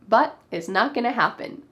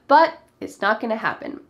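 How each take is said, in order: First: The words are contracted and reduced together. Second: The same.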